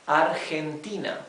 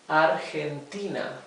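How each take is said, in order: The two takes are said the same way.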